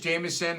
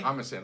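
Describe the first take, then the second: First: The name begins with a J sound. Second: The name begins with an H sound. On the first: The speaker calls it right. "His name is Jameson" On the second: The speaker calls it wrong. "somebody uh, mispronounced his name as"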